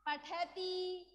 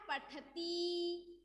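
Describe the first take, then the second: First: Said in the usual way. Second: पठती drawn out syllable by syllable, very slow; teacher stretches पठती slowly so pupils hear each sound; slow spelled-out demo. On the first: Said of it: "क्या बन गया?". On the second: Shown as a demonstration. Teacher slowly models पठती for the class. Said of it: "तो क्या बन गया?".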